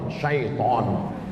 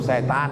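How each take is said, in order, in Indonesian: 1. Katanya diucapkan syaiton. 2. Katanya diucapkan setan. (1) "yang betul nih mana Pak Ustaz? ... Syaiton" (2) "Cuman orang kita payah bilang syaiton. Apa itu? Setan"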